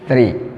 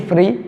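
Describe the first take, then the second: First: The word begins with a th sound. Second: The word begins with an f sound. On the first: The speaker calls it right. "mais il faut dire three" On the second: The speaker calls it wrong. "ni free"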